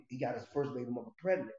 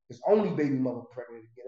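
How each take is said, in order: First: Said in the usual way. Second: "only" hit louder as the correction; correcting himself, louder on "only"; stress on only. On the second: Real, not acted. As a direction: lean on "only" to fix the wording. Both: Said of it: "Let me rephrase that".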